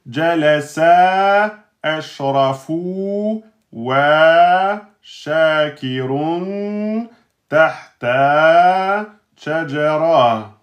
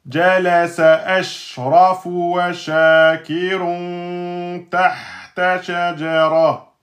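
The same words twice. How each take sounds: First: The words are separated by breaks. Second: The words run together without breaks. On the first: The speaker calls it wrong. "ne commencez pas à dire" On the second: The speaker calls it right. "Vous voyez, j'enchaîne"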